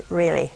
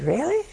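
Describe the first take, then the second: First: "Really." low and falling; confirming "Really.". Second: "Really?" rising high at the end; questioning "Really?". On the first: Retelling her answer to the wife, low falling "Really.". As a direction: drop "Really." as a firm answer. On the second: Retelling a wife doubting the news, rising "Really?". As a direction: lift "Really?" into a surprised question. Wife asks, gets confirmation. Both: Retold or imitated.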